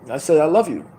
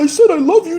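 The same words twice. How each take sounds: First: It sounds cool and offhand. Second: It sounds needy and pleading.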